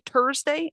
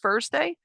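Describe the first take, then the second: First: The word begins with a plain T sound. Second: The word begins with a TH sound. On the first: The speaker calls it wrong. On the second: The speaker calls it right.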